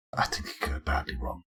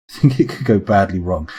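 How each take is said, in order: First: Hushed, voiceless whisper; very soft confidential whisper; whispered aside. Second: Said in the usual way. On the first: Real, not acted. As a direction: whisper it under your breath. Muttered aside, then repeated aloud.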